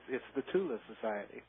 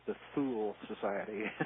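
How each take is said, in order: First: Thule is pronounced the way German says it. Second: Thule is pronounced in an anglicized, butchered way. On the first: The speaker calls it right. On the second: The speaker calls it wrong.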